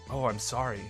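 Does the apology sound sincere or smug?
sincere. The apology sounds warm and sincere.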